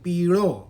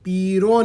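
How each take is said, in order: First: The middle consonant is a retroflex l. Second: The middle consonant is an r. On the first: The speaker calls it right. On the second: The speaker calls it wrong. "પીરો નહીં"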